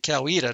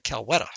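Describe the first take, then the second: First: The name is said the way locals say it. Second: The name is said as outsiders read it. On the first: This is how residents of the county say it. The speaker calls it right. "the local ones pronounce it Coweta" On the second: This is how someone reading the name would say it. The speaker calls it wrong. "the people looking at that would probably say Coweta"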